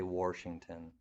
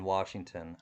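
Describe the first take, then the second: First: It is said with an added R sound. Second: It is said without an R sound. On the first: The speaker calls it wrong. "I do not say Washington" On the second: The speaker calls it right. "I don't put a uh, an R in, in Washington"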